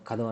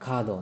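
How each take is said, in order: First: The first vowel is short. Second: The first vowel is long. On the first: The speaker calls it wrong. "ಕದೋ ಕದೋ ಅನ್ನಲ್ಲ" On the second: The speaker calls it right. "ಕಾದೋ ಅಂತೀವಿ"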